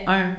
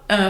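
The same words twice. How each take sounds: First: "un" with the Québécois nasal vowel. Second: "un" with the nasal vowel of France; French vowel. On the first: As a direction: say "un" the Quebec way, rounded nasal. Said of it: "juste à cause du truc québécois". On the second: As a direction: say "un" as a French person would, like "hein". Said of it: "un Français dirait un". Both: Shown as a demonstration.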